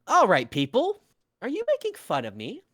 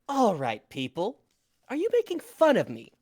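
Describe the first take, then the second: First: It sounds cheerful and light. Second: It sounds fed up and condescending.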